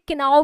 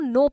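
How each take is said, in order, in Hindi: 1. शुरू का k बोला जाता है। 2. शुरू का k साइलेंट है। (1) "जो गलत प्रोनाउंसिएशन है" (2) "उसको नो पढ़ते हैं"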